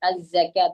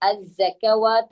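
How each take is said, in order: First: The long vowel follows with no 'w' sound. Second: A 'w' sound is heard before the long vowel. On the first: The speaker calls it right. "അവിടെ അസ്സകാത്ത" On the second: The speaker calls it wrong. "അസ്സകവാത്ത് അല്ല"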